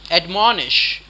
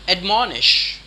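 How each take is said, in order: Both takes have the same delivery.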